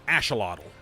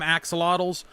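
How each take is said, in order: First: The word has the pronunciation used where they live. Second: The word has the familiar English pronunciation. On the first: This is how people in the animal's home region say it. The speaker calls it right. "it's actually pronounced axolotl" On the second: This is how most people usually say it. The speaker calls it wrong. "we're so used to you know calling them axolotls"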